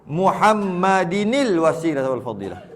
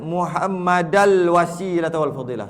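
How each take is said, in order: First: Muhammad ends in -inil before wasilah. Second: Muhammad ends in -al before wasilah. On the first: The speaker calls it right. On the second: The speaker calls it wrong.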